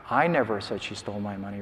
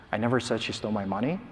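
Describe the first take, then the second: First: "I" said with extra weight at the start; stress on I. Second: "money" stressed with a rise at the end, said quickly. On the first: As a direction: lean hard on the word "I", the rest level. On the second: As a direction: punch the word "money" and lift it, keep the pace quick. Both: Shown as a demonstration. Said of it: "stress different words across different trials".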